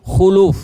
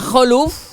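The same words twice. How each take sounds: First: The first vowel is a rounded u sound. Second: The first vowel is an open a sound. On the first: The unpleasant breath of a fasting person. The speaker calls it right. "khanya di dhammah" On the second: A traitor who breaks promises. The speaker calls it wrong. "Kalau dibaca khuluf, khanya di fathah"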